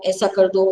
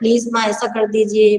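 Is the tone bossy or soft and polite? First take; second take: bossy; soft and polite. First: It is said as a bossy order. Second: It is said softly and politely.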